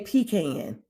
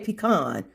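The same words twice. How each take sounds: First: It is said with a Southern US pronunciation. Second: It is said with a non-Southern US pronunciation.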